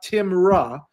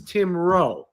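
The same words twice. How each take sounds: First: The name is said with English-style pronunciation. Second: The name is said with Swedish-style pronunciation. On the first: The speaker calls it wrong. "the town is not" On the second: The speaker calls it right.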